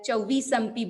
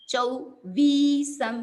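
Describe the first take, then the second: First: The word is said quickly, with vowels not lengthened. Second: The word is said slowly, with a long vi. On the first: The speaker calls it wrong. "उसको फटाफट बोल देते हैं" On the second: The speaker calls it right. "चौ ऊ छोटा है और फिर वी लॉन्ग है"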